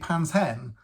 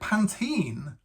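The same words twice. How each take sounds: First: It is said in the speaker's usual pronunciation. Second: It is said with an American pronunciation. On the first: The speaker calls it right. "it's obviously Pantene" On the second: The speaker calls it wrong. "when I first heard an American pronounce it that way"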